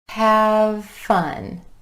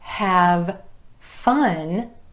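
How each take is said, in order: First: The two words are linked together. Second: The two words are said separately.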